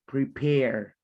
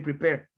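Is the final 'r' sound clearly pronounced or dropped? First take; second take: pronounced; dropped. First: The final r sound is clearly pronounced. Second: The final r sound is dropped. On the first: The speaker calls it right. "Er, er, er" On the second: The speaker calls it wrong. "you only say prepare"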